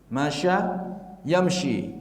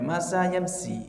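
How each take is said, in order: First: The words are said with an 'sh' sound. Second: The words are said with a plain 's' sound. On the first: The speaker calls it right. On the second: The speaker calls it wrong. "nggak boleh masa yamsi"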